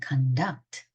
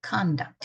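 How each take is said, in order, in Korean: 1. 강세는 마지막 음절에 있습니다. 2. 강세는 첫 음절에 있습니다. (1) "강세가 뒤에 있으면 conduct" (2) "이거 명사고"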